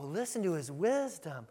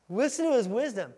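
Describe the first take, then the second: First: It is said in an admiring, impressed tone. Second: It is said in a scornful, offended tone. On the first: The crowd is impressed by the teaching. "they weren't like, oh, listen to his wisdom. Look at his power. Oh, this is great" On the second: The crowd takes offense at the teaching. "They were like, whoa, listen to his wisdom"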